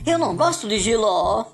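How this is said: It is said in a dramatic, exclaiming way.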